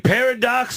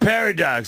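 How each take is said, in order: First: It sounds like 'pair of docs', stressing docs. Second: It sounds like one word, stressed at the start. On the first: There are two doctors. "Is it two doctors" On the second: It is a space-time contradiction. "or is it some kind of space-time mix-up?"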